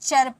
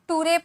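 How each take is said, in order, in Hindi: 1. इसे 'char' पढ़ा जाता है। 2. इसे 'too-ray' पढ़ा जाता है। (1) "इसे चर पढ़ेंगे" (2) "ना टूरे पढ़ेंगे"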